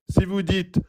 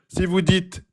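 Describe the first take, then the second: The two takes are said the same way.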